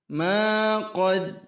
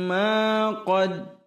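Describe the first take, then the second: The two takes are said the same way.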